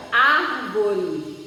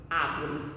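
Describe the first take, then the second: First: Árvore with the R pulled clearly, "árvore"; correct árvore. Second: Árvore said softly and low as "ávoli", the R dropped; Árvore mispronounced with an L sound, no R; árvore without R. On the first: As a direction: sound the R in Árvore, mouth wide open. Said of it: "como é a palavra correta". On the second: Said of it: "Se eu tirar o R, vai ficar árvore". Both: Shown as a demonstration.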